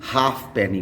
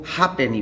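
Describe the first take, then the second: First: The f sound is pronounced. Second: The f sound is silent. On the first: The speaker calls it wrong. "ना कि हाफ पेनी बोलते हैं" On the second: The speaker calls it right. "उसको हाफ पेनी बोलते हैं / एफ silent हो जाता है"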